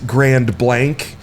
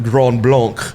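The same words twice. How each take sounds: First: The name is pronounced the English way. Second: The name is pronounced the French way. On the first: The speaker calls it right. "you said it like I'm supposed to" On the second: The speaker calls it wrong. "I called it by the French pronunciation"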